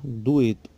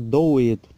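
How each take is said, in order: First: The first vowel is pronounced as u. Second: The first vowel is pronounced as o. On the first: The speaker calls it right. "fica U, como na palavra dueto" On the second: The speaker calls it wrong. "não fica doeto"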